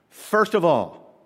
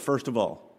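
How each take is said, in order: First: "first" stressed, the phrase said slowly; slow down and hit "first"; slow emphasis. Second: Said in the usual way. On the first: Shown as a demonstration. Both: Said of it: "must be important".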